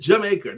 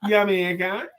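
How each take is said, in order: First: The word begins with a J sound. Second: The word begins with a Y sound. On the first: This is the standard way to say it. "That's the proper pronunciation" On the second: It is said that way just for fun. "I've heard people pronounce it that way"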